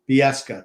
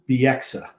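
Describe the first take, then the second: First: The name ends with a 'ska' sound. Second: The name ends with a 'ksa' sound. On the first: This is how a commentator used to say it. The speaker calls it wrong. "He used to call it like Fresca" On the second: This is the player's real name. The speaker calls it right. "it's Bieksa is his name"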